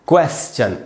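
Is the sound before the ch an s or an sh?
s. An s sound comes before the ch. This is the British pronunciation. "British English में ... स होगा, श नहीं होगा"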